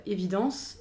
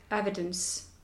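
First: "évidence" evenly stressed, French final syllable. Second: "evidence" stressed on the first syllable, English style. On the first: Coach contrasting a French word with its English twin, French stress. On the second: Coach showing an interviewer tonic accent, English stress on "evidence". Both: Shown as a demonstration. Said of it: "J'ai pas du tout accentué pareil".

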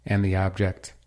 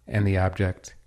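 No difference in how they are said.

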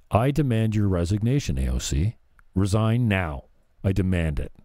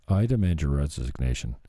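First: A hammed-up stern demand; mock forceful demand. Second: A limp, half-hearted demand; deliberately weak demand. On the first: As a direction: push it like a pompous senator. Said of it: "See how that didn't work?". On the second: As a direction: say it so it falls flat. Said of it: "do you see how that didn't work". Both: Shown as a demonstration.

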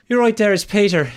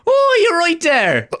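First: High, loud Irish caller imitation; hammed-up Irish phone greeting; Irish accent. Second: Very high, loud, drawn-out mock Irish; over-the-top Irish put-on, stretched out; hilarious Irish accent. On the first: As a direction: mimic an Irishman on the phone, pitched up. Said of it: "Hilarious Irish accent". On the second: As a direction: ham up an Irish accent, slowly squealed. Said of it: "putting on a hilarious accent".

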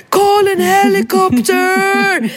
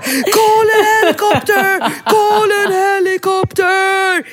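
First: High frantic yell in English; shrill panicked cry for a helicopter; panicked shout. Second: High frantic yell, mocking her own panic; hammed-up scream for a helicopter; re-enacting her panic in a toy store; mock panicked shout. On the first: Retold or imitated. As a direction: scream it for help in a panic. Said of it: "sprang med honom i famnen och skrek". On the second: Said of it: "Bingo kan ju fortfarande mobba mig".

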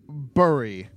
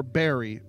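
First: "Bury" said as spelt, B-U-R-Y; alternative pronunciation. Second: "Barry" with the first syllable like "bear"; alternative pronunciation. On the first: Unsure of the colonel's surname, "Bury" tried as spelt. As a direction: say "Bury" with the first of two possible vowels. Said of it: "It's B U R Y". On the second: Unsure of the colonel's surname, "Barry" offered as alternative. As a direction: say "Barry" to rhyme with "berry". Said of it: "so Barry, maybe, I don't know". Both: Shown as a demonstration.

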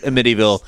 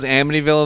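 First: "Amityville" stressed on MIT, uh-MIT-ee-ville; odd pronunciation. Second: Said in the usual way. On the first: Retold or imitated. Quoting how the friend says it, "Amityville" as uh-MIT-ee-ville. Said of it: "she says it Amityville every single time". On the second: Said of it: "the only person who says Amityville".

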